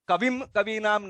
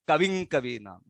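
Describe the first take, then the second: First: The first word ends in a clear m sound. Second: The first word ends in an ng sound. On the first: The speaker calls it wrong. "नहीं करना है" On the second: The speaker calls it right. "Continuity से वो natural तरीके से"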